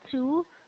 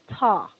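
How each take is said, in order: First: The vowel is a full, rounded 'oo' sound. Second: The vowel is a short, reduced 'uh' sound. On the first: The speaker calls it wrong. "Not two" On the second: The speaker calls it right. "Change this to an ah instead of a two"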